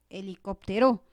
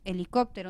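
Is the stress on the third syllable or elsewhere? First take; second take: elsewhere; third syllable. First: The stress falls away from the third syllable. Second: The stress falls on the third syllable. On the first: The speaker calls it wrong. "No es" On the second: The speaker calls it right. "sino es"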